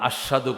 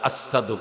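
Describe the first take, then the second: First: The consonant after the first vowel is sh. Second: The consonant after the first vowel is s. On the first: "আশহাদু কই তার না" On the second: "আসাদু কয়"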